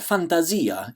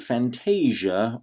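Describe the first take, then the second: First: It is pronounced the Italian way. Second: It is pronounced the plain English way.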